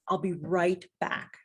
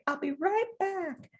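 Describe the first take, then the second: First: It is said in an ordinary adult voice. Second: It is said in a sweet childlike voice.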